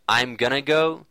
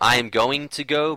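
First: The words 'going to' are reduced to 'gonna'. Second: The words 'going to' are said in full. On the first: The newer, more connected way of speaking. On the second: The older, less connected way of speaking. "people would say"

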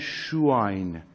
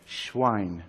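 First: A short vowel is heard after the sh sound. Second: The sh sound runs straight into v, no vowel. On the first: The speaker calls it wrong. "معمولا اشتباه همه تلفظ میکنن، میگن شواین" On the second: The speaker calls it right. "شین بی اعراب باشه"

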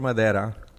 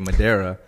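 First: The word is said with a Spanish accent. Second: The word is said with an English accent. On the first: "I always like to add the Spanish. Accent"

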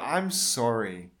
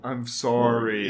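First: Sorry is said with a plain, ordinary vowel. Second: Sorry is said with a long Canadian 'oh' vowel.

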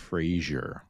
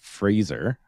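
First: The middle consonant is a softer zh sound. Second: The middle consonant is a clear z sound. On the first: The speaker calls it wrong. "you keep saying it like the TV show" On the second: The speaker calls it right. "you need to put the Z in it"

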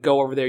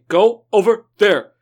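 First: It is said in a plain, unaccented way. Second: It is said with a slight Japanese accent. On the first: "instead of saying" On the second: "With, like, a slight stagnant Japanese accent"

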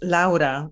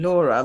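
First: The name is said with Italian vowel sounds. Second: The name is said with English vowel sounds. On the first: This is the name's original pronunciation. The speaker calls it right. "my name is pronounced Laura" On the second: This is how locals usually say the name. The speaker calls it wrong. "rather than Laura"

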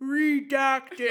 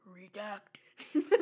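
First: It is said loudly. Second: It is said quietly, in a low pitch.

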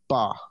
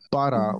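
First: Only the first syllable is said. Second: Both syllables of the word are said.

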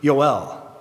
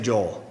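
First: The name begins with a Y sound. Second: The name begins with a J sound. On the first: "You would pronounce it in Hebrew" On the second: "We say Joel, because it's written J-O-E-L"

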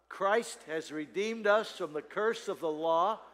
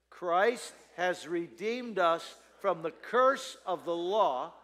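First: It is read at a normal pace. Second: It is read more slowly.

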